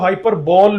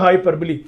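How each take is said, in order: First: The word ends with a 'ball' sound. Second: The word ends with a 'lee' sound. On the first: The speaker calls it wrong. "शायद आपने पढ़ा भी ऐसे ही हो" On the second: The speaker calls it right. "ये लफ्ज ध्यान से सुनिएगा"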